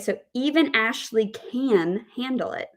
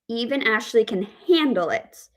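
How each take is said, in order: First: The stress is on the word can. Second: The stress is on the word handle. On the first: The focus is on her ability to manage it. "we have the word stress on can" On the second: She copes without breaking down, though she dislikes it. "we have the word stress on handle"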